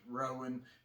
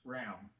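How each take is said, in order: First: The name is said as two separate syllables. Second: The name runs together into one syllable. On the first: The speaker calls it wrong. "it is not pronounced Rowan" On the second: The speaker calls it right. "it all runs together"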